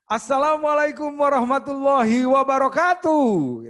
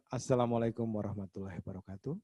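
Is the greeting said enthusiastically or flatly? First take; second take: enthusiastically; flatly. First: It is said with lively, smiling enthusiasm. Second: It is said flatly, without enthusiasm. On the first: The speaker calls it right. "penuh semangat, penuh senyum, antusias gitu" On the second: The speaker calls it wrong. "Jadi bukan"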